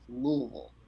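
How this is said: The name is mumbled together like one syllable.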